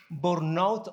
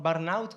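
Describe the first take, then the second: First: Burnout with an "or" first vowel, "bornaut"; Spanish-accented "bornaut" for burnout; trying a pronunciation. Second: Burnout with an "ar" first vowel, "barnaut"; Spanish-accented "barnaut" for burnout; trying a pronunciation. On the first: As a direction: say burnout as "BOR-naut", unsure. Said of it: "así se pronuncia?". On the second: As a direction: say burnout as "BAR-naut", questioning. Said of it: "¿Cómo se pronuncia?". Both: Shown as a demonstration.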